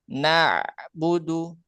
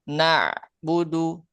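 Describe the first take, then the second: No difference in how they are said.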